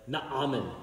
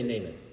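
First: The name is said with a Hebrew pronunciation. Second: The name is said with an English pronunciation. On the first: "The original Hebrew is more like Naaman" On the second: "but I'm going to say Naaman"

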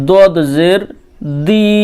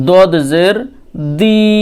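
Both takes have the same delivery.

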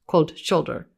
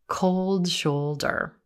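First: The O vowels are short and clipped. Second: The O vowels are long and gliding. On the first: The speaker calls it wrong. "So it's not" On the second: The speaker calls it right. "it's a little longer or stretched a little more"

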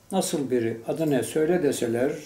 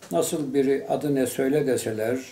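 Both takes have the same delivery.

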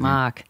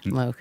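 First: It is said in a plain accent, r pronounced. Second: It is said in a Boston accent, r dropped.

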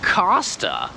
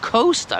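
First: The first part sounds like the word cost. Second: The first part does not sound like cost. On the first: The speaker calls it right. "no rzeczywiście, to jest Costa" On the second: The speaker calls it wrong. "Czemu ja myślałem, że to jest Costa?"

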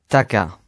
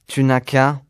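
First: Sounds are dropped and run together. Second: Every syllable is pronounced in full.

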